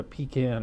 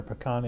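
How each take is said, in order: First: "pecan" said PEE-can, with a long ee. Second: "pecan" said puh-KAHN, stressed on the end. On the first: Offering a name for the ale, "pecan" said PEE-can. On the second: Offering the other name for the ale, "pecan" said puh-KAHN. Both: Shown as a demonstration. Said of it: "pronounce it pecan or pecan".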